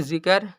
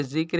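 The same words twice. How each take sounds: First: "जिक्र" said zi-kar, two full syllables; wrong pronunciation. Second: "जिक्र" as zikr, क and र joined; no vowel between क and र in "जिक्र"; correct pronunciation. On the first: Teacher repeats the reading to avoid, "जिक्र" as zi-kar. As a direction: open up a vowel before the र in "जिक्र". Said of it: "तो नहीं पढ़ेंगे". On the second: Teacher gives learners the proper reading, "जिक्र" as zikr. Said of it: "जिक्र ही पढ़ेंगे". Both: Shown as a demonstration.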